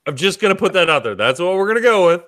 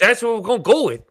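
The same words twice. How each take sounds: First: Quick, failed attempt at an Irish accent; bad Irish accent. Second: High, quick, badly faked Irish accent; retry an Irish accent, higher and still wrong; worse Irish accent. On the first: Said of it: "talk in an Irish accent". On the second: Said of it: "that's not fucking Irish either".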